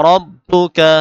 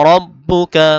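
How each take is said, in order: Both takes have the same delivery.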